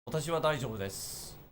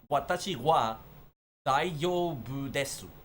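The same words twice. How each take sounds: First: It is spoken with a native Japanese accent. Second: It is spoken with a Spanish accent. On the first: "if I switch over to Japanese" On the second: "I'll put on a Spanish accent speaking in Japanese"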